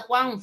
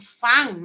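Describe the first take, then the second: First: The word starts with a breathy 'hw' sound. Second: The word starts with an f sound. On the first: "En vez de Juan" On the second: "Es castellano amazónico"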